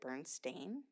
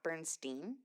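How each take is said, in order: First: The last syllable sounds like 'stain'. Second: The last syllable does not sound like 'stain'. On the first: The name is said the way it is actually spelled. "wouldn't my mom have pronounced it Bernstein" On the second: The name is said the way it was remembered. "not Bernstein"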